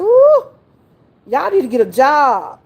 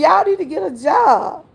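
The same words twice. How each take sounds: First: High, loud Ooh, then scolding; a high, loud Ooh, then tell the kids to go work; exasperated grandma. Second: Repeated scolding. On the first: Grandma telling summer kids to get a job, exasperated. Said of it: "I said". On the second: Grandma repeating her advice to the kids, firmly. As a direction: say it again like you mean it. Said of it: "I told you". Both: Retold or imitated.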